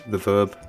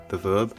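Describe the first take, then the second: No difference in how they are said.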